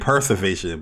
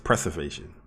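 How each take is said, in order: First: The word begins with the sound 'per'. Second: The word begins with the sound 'pre'. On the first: The speaker calls it wrong. "I was saying preservation" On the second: The speaker calls it right. "but it's preservation"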